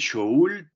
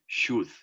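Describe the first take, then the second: First: The L sound is pronounced in the word. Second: The L sound is silent in the word. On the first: The speaker calls it wrong. "No se dice should, ¿listo? Nada de pronunciar la L" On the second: The speaker calls it right. "simplemente should"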